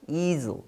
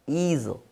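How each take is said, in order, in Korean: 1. 영어식으로 발음됐어요, 'ee-zl'처럼요. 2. 영어식으로 발음됐어요, 'ee-zl'처럼요.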